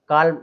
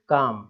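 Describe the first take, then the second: First: The L sound is pronounced in the word. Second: The L sound is silent in the word. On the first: The speaker calls it wrong. "काल्म ऐसा नहीं बोलना है" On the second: The speaker calls it right. "केवल काम"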